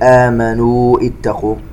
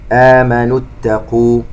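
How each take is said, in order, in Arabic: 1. الحركة الأخيرة من الكلمة الأولى تُمدّ طويلة. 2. الحركة الأخيرة من الكلمة الأولى تُقطع قصيرة. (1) "لا نقول آمنوا اتقوا" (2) "يسقط المد لالتقاء الساكنين"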